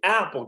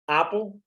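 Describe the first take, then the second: First: The first vowel falls between A and E. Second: The first vowel sounds like an open A. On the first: "que é no meio" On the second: "som de A"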